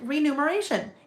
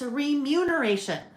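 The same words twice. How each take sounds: First: The n sound comes before the m sound. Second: The m sound comes before the n sound. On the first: The speaker calls it wrong. "I always thought it was remuneration" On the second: The speaker calls it right. "M U N instead of N U M"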